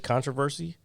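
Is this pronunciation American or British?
American. It is said in an American pronunciation. "we say controversy"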